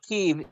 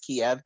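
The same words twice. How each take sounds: First: The name is said in its Ukrainian form. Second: The name is said in its Russian form. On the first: "in Ukrainian" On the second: "The name of Kiev in Russian is"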